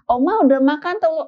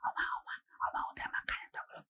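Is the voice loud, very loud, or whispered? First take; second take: very loud; whispered. First: It is said in a very loud voice. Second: It is whispered very quietly.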